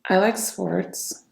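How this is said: The voice sounds sad and low. "Sadness. Low vibrational tonality"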